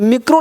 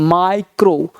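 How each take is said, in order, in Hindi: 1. पहला स्वर 'ee' जैसा बोला जाता है। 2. पहला स्वर 'eye' जैसा बोला जाता है। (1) "तो मिक्रो नहीं पढ़ना" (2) "क्या पढ़ना है माइक्रो"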